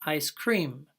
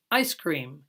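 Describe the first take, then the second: First: Ice cream with "cream" carrying the stress; "ice" light, "cream" stressed and falling; even stress. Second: Ice cream with ICE stressed, cream falling. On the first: Teacher showing the British way: "cream" stressed. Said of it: "but I usually say". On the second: Teacher showing the American way: stress on "ice". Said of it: "Most Americans will say". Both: Shown as a demonstration.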